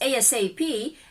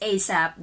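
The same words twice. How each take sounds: First: It is spelled out letter by letter. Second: It is said as a single word. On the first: It is being treated as an initialism. "if it's ASAP, that is initialism" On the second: It is being treated as an acronym. "when it's read as ASAP, that becomes an acronym"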